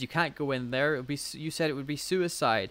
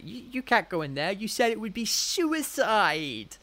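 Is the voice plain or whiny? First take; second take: plain; whiny. First: The line is said in a plain voice. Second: The line is said in a whiny voice.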